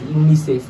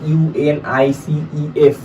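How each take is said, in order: First: It is said as a single word. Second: It is spelled out letter by letter. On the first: The speaker calls it right. "আমি কিন্তু একটা ওয়ার্ডের মতো বলছি" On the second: The speaker calls it wrong. "আমি কিন্তু বলছি না যে"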